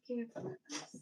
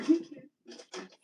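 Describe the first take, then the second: First: Breathy whispered repeat of care for us; whispered echo. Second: Bursting out higher and louder with a laugh on care; laughing loudly, she repeats her motto to viewers. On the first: Soft whisper. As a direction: she echoes her own motto to viewers in a whisper. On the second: Loud laughing call. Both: Pretend.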